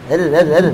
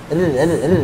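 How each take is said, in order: Both takes have the same delivery.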